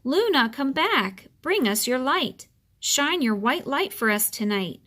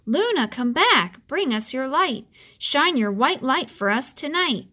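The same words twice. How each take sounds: First: Calling out. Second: The wind howling for the moon; roaring wind. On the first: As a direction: call to the lost moon across the sky. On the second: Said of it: "whispering and then roaring". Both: Acted.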